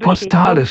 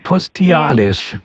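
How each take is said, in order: First: It is said with no extra vowel after the 't'. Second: It is said with an extra 'ee' after the 't'. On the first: The speaker calls it right. "das heißt postalisch" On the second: The speaker calls it wrong. "nicht postialisch"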